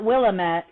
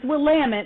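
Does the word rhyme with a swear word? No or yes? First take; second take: no; yes. First: It is said so it does not rhyme with one. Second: It is said so it rhymes with a swear word. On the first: The speaker calls it wrong. "not Willamette" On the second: The speaker calls it right. "it is Willamette ... It rhymes with a word we can't say on this podcast"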